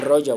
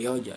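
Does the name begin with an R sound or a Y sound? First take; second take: R; Y. First: The name begins with an R sound. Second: The name begins with a Y sound. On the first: "Even Roger was hard for me" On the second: "I could not pronounce the letter R. ... I would say Yoja"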